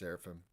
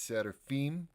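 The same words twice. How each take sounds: First: It is said with an American pronunciation. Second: It is said with a Russian pronunciation. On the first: "from Americans that I meet, especially ones like Midwest South" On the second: "From the Russian traditional pronunciation"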